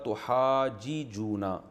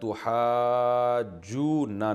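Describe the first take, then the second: First: The two j sounds are separated by a vowel. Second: The two j sounds merge into one doubled sound. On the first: This is the underlying form. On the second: This is how it is actually read.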